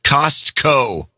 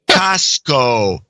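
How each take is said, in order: First: The word is said with the T sound. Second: The word is said without the T sound. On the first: The speaker calls it right. "I quickly corrected her and now pronounce it Costco" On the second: The speaker calls it wrong. "without the T"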